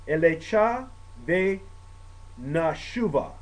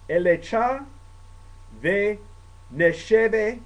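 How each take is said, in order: First: "Elecha ve nashuva" said again, vowels corrected to nashuva; second try, "Elecha ve nashuva" joined up; saying it again. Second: "Elecha ve nesheve" read slowly, words spaced apart; first try at "Elecha ve nesheve", spaced out; Hebrew prayer words. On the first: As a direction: repeat it as "Elecha ve nashuva", smoother. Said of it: "I'm gonna say it again". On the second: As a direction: sound out "Elecha ve nesheve" haltingly. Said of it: "I'm gonna read this in Hebrew". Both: Shown as a demonstration.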